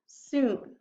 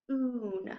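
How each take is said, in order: First: "soon" said clearly and firmly with a falling finish; clear whole word. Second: "soon" said softly as one smooth blend; soft blended word. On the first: Teacher firmly reading soon to students. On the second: Teacher softly blending soon for students. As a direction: glide gently through "soon" as the sounds join. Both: Shown as a demonstration. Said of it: "So now I have".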